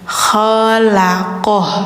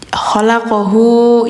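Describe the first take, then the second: First: The word ends on a stopped consonant. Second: The word ends on a drawn-out vowel. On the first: The speaker calls it right. "tapi matiin aja" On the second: The speaker calls it wrong. "jangan dipanjangin ya. Khalaqahu jangan"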